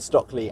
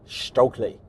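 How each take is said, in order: First: The first syllable sounds like 'stock'. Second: The first syllable sounds like 'stoke'. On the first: The speaker calls it wrong. "I need to stop saying Stockley" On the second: The speaker calls it right. "start pronouncing it Stokely"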